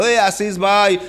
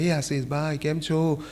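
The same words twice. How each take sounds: First: A friend calling his name, raised and lifting; fond call by name. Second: Much softer and slow, a gentle hello; soft call in silence. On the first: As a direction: call out to Ashish fondly over the noise. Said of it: "પ્રેમથી બોલાવતો". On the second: Someone greets Ashish softly in pin-drop silence, slow gentle call. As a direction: call his name gently into a silent room. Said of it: "કોઈ મને જરા અવાજ કરે". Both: Retold or imitated.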